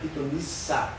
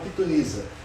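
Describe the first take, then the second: First: The middle consonant is a hissing s sound. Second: The middle consonant is a buzzing z sound. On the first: The speaker calls it right. "o certo é pitonissa, com dois S" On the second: The speaker calls it wrong. "alguns falam pitonisa"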